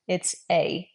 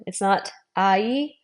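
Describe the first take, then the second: First: "a" as one pure vowel, falling; correct single "a". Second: "ai" drawn out as two sounds, rising; wrong glide "ai". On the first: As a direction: settle on a clean single "a". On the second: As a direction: slowly say "ai" sliding into an ee. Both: Shown as a demonstration. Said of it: "It's not ai, it's a".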